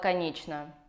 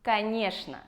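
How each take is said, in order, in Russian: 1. Средний согласный звучит как 'ch'. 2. Средний согласный звучит как 'sh'. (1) "Это неправильный ответ" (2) "Правильный ответ – «конечно». Ч превращается в Ш"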